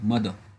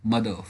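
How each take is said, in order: No difference in how they are said.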